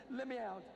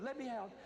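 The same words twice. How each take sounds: First: Same high, loud frantic cry, no change; panicked plea repeated. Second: High, loud panicked cry to be let out; panicked plea. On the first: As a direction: keep begging just as loud. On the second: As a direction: beg to escape, frantic and loud. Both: Retold or imitated. Terrified boy runs to door.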